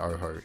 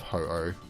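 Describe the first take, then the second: First: The name begins with an 'oh' sound. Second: The name begins with a 'ho' sound. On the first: The speaker calls it wrong. "I always say it wrong" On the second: The speaker calls it right. "instead of Ho-Oh"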